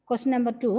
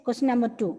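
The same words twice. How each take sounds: The two takes are said the same way.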